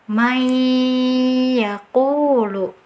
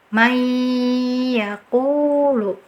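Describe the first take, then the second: Both takes have the same delivery.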